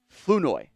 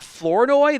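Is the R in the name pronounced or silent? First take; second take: silent; pronounced. First: The R sound is left out of the name. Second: The R sound is pronounced in the name. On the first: The speaker calls it right. "like the R doesn't exist" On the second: The speaker calls it wrong. "it's not Flournoy. The R is silent apparently, so I've been saying it wrong"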